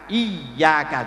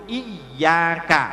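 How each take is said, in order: First: The middle consonant is a clear y sound. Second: The same.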